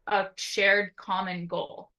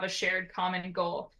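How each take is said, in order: First: Shared stretched out slowly with a falling close; slow emphasis. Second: Said in the usual way. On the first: Shown as a demonstration. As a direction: say shared common goal slowly, weight on shared. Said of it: "is to have a shared common goal".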